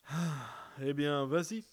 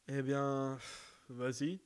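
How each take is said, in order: First: It is said with a sigh before it. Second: It is said with no sigh before it. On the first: The speaker calls it right. "le soupir avant" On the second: The speaker calls it wrong. "Non, pardon, le soupir avant"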